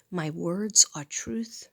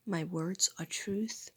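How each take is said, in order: First: Slow, firm "My words are truth"; steady spoken mantra; affirmation spoken. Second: Slow whispered "My words are truth"; hushed repeated mantra; whispered affirmation. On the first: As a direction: declare it out loud, slowly. Repeats affirmation differently. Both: Real, not acted.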